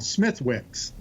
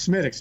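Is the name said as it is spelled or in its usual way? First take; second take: as spelled; usual way. First: The name is said following its spelling sound by sound. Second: The name is said its usual way, not as spelled. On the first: This is how the name is written. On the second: This is how the name is actually said. "it's pronounced"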